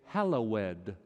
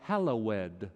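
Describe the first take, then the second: First: The word is said with three syllables. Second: The word is said with three syllables.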